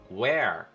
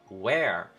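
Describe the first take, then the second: First: The final R is strongly curled and pronounced. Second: The same.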